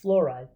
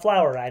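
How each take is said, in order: First: The first syllable does not sound like 'flour'. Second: The first syllable sounds like 'flour'. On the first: The speaker calls it right. "it's fluoride" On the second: The speaker calls it wrong. "It's not fluoride, I still see a lot of people doing flour there"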